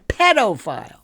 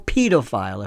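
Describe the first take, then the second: First: It is said with an American pronunciation. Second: It is said with a British pronunciation.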